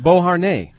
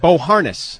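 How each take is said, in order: First: The name is pronounced the French way. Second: The name is pronounced an anglicized way. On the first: The speaker calls it right. "It's a French name. It's pronounced Beauharnais" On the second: The speaker calls it wrong. "he mispronounces it"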